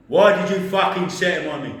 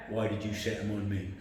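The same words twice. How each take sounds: First: Imitated boss, loud and raised; angry shout. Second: Imitated boss, low and subdued; low menace. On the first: Boss repeating his accusation to the employee, angry shout. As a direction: burst out much louder and higher. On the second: Boss questioning his employee, low menace. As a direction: drop it down, softer and controlled.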